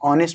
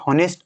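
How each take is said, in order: First: The word begins directly with a vowel. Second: The word begins with an h sound. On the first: The speaker calls it right. "याचा उच्चार काय करायचा ऑनेस्ट ऑनेस्ट असा करायचा" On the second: The speaker calls it wrong. "याचा उच्चार हॉनेस्ट असं करायचं नाही"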